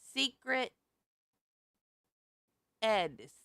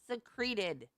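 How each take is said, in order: First: It sounds like 'secret' with 'ed' added. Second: It does not sound like 'secret' plus 'ed'. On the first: Something was hidden away. The speaker calls it right. "the word is secreted. Secret ed" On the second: Something oozes out. The speaker calls it wrong. "Not secreted. Secreted means something oozes out of it"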